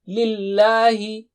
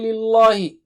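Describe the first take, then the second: First: The L sound is thin and light. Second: The L sound is thick and heavy. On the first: The speaker calls it right. "Lam is thin here" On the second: The speaker calls it wrong. "Don't say Lillahi"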